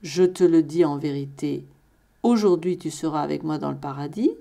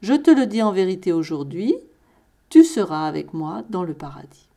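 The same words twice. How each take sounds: First: The pause comes before "aujourd'hui". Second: The pause comes after "aujourd'hui".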